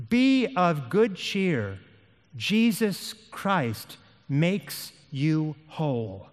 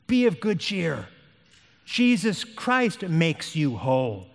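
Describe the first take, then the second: First: Very slow, word-by-word assurance; slow, solemn encouragement. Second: More connected, emphatic exhortation; firmer repeated encouragement. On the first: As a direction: space out every word with weight. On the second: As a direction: drive the assurance home without lingering. Same encouragement repeated, more briskly. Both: Acted.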